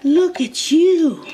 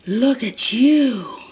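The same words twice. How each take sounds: First: Higher coo. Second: Drawn-out slow doting coo. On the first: Owner gushing at her eating dog, high slow baby talk. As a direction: lift it up high and stretch it for the dog. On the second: Owner to her dog eating, slow doting coo. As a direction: dote on the dog slowly, lingering on you. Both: Real, not acted.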